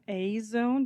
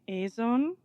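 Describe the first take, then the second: First: The first syllable sounds like the English letter A. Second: The name is said in a Japanese-style pronunciation. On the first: "Most English speaking content creators call it A zone because of the letter A" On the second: "when it comes to Japanese, they just say A zone"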